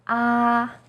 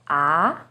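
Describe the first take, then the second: First: The pitch stays high and level. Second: The pitch starts lower and rises. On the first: "First tone, yi sheng, is high and steady" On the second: "Second tone, er sheng, starts with a little lower pitch and goes up"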